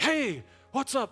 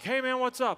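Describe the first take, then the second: First: It is said in a breathy, halting voice. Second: It is said in a plain, smooth voice.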